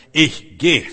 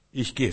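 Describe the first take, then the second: First: „Ich geh“ laut und wuchtig, beide Wörter einzeln betont; entschlossener Ausruf. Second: Said in the usual way. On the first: Acted. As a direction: den Entschluss kraftvoll herausrufen. Entschlossene Erklärung, danach leiser wiederholt. (laut und entschlossen)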